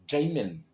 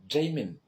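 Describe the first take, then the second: No difference in how they are said.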